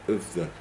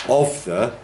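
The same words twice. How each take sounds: First: OF THE unstressed, soft and reduced; de-stressed. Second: OF THE with "of" hit firmly; stressed form. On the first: Teacher showing de-stressing going on, unstressed. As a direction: throw "of the" away as weak syllables. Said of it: "that kind of de-stressing". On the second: Teacher contrasting with weak forms, stressed. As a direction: give "of" in "of the" full weight. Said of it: "we're saying". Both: Shown as a demonstration.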